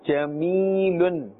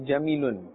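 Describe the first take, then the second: First: The middle ee vowel is held long. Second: The middle ee vowel is cut short. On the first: The speaker calls it right. "We must pull a little bit because this is now a ya madda" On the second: The speaker calls it wrong. "We cannot say jameelun"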